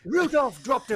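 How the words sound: It is said in a posh British accent. The speaker calls it right. "a My Fair Lady moment where you've got Rex Harrison"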